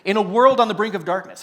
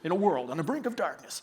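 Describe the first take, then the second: First: It is said in his normal speaking voice. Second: It is said in a deep movie-trailer voice.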